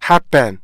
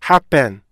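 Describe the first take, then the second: Both takes have the same delivery.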